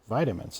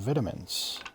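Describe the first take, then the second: First: It is said the American way. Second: It is said a non-American way. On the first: "us Americans say" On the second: "instead of"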